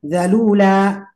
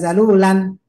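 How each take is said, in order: First: The word ends on a long vowel without n. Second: The word ends with an added n sound. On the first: The speaker calls it right. "ya dua harokat seperti zalula" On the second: The speaker calls it wrong. "tidak zalulan"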